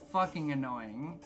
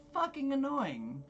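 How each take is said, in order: First: Said in the usual way. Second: High-pitched exasperated aside. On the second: Real, not acted. Server griping about demanding diners, high-pitched exasperation.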